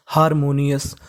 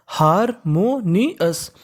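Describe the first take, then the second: First: Said in the usual way. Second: harmonious very slowly, each part on its own; teacher slowly sounding out harmonious; syllable by syllable. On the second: Shown as a demonstration. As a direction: split harmonious into pieces with pauses between.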